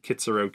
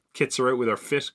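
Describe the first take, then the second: First: Said in the usual way. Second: Put-on old man slang. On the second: Shown as a demonstration. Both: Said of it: "my old man slang".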